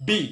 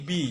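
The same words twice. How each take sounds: First: "বি" popped out with a punched b; correct letter B. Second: "বি" said plainly, with no punch; everyday wrong B. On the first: Teacher corrects the learners' B, "বি" struck hard like a beat. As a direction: hit "বি" like a beat. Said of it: "বি না, এটা হবে". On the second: Teacher shows what we normally say, "বি" without a beat. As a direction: let "বি" out as an ordinary Bengali syllable. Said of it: "আমরা বলি". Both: Shown as a demonstration.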